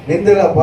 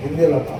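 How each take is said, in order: First: Firm louder second ask; louder repeat. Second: Said in the usual way. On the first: Real, not acted. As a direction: call it out louder across the room. Preacher asks again, louder.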